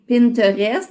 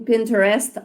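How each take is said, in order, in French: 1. Le mot se prononce avec des sons français. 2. Le mot se prononce avec des sons anglais. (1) "en français" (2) "en anglais"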